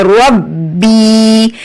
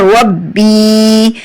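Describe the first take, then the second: First: रब्बी slow, with a heavy pressed bb; firm doubled b. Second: रब्बी with a firm doubled bb and long ee; doubled b, stretched. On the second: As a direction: press the bb of रब्बी hard, then stretch the ee. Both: Shown as a demonstration. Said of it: "सख्ती और जमाओ से".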